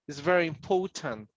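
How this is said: The T in important is pronounced strongly. "British people might say important"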